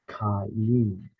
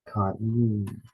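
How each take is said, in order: Both takes have the same delivery.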